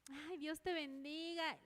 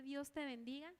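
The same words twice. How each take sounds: First: Slow, drawn-out sugary blessing; effusive blessing. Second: Said in the usual way. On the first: Acted. Believer greeting an enemy, effusive blessing. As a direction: act out gushing goodwill, stretching the words. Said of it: "Le vamos a decir". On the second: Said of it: "darle la mano y decirle".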